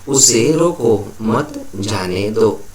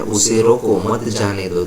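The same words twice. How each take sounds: First: Slow, with "उसे रोको", "मत", "जाने दो" set apart by pauses; punctuated reading. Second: Said in the usual way. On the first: Shown as a demonstration. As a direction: read it slowly, pausing between "रोको" and "मत". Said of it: "तो इसे ऐसे लिखा जाता है". (धीरे-धीरे, "रोको" और "मत" के बीच रुककर) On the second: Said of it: "ये पांचवा वाक्य है".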